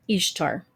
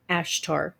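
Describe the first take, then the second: First: Ishtar beginning with an I, as in "ish"; I at the start. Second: Ashtar beginning with an A, as in "ash"; A at the start. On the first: Vlogger contrasting the familiar name, Ishtar with an I. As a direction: say Ishtar with an I sound first. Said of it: "not with an I". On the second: Vlogger clarifying the goddess's name, Ashtar with an A. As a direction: say Ashtar with an open A first. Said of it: "with an A". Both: Shown as a demonstration.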